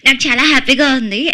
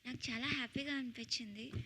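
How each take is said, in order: First: It is said with full energy in character. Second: It is said calmly in her own voice.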